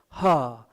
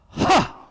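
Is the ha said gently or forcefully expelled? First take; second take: gently; forcefully. First: The sound is said plainly and lightly. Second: The sound is forcefully expelled from the chest. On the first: The speaker calls it wrong. "just don't say like ha" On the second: The speaker calls it right. "you should vomit like ha"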